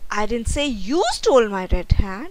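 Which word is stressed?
you. The stress is on the word you.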